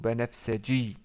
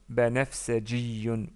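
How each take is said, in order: First: The word ends on -i, without -yun. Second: The word ends with a full -yun ending. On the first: Speech stops on the word. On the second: The word is followed by more speech.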